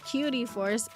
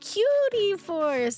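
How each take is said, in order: First: It is said in a plain, ordinary tone. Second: It is said in a cute, affectionate tone. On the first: It is just a nickname. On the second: It expresses extra affection.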